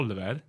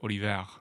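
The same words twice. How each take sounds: First: The name is said with Swedish pronunciation. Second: The name is said with French pronunciation. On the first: "It's the same for me in Sweden. My name's" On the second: "And in France, it's"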